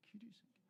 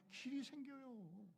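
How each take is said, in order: First: Hushed secret whisper; whispered reveal of the dry path. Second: Slow, stretched declaration; preacher proclaiming the new path, slow and drawn out; drawn-out proclamation. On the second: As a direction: draw it out slowly in triumph. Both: Acted.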